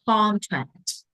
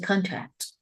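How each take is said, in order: First: The stress is on the first syllable. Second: The stress is not on the first syllable. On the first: The speaker calls it right. "We stress the very first syllable" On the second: The speaker calls it wrong. "don't say contract"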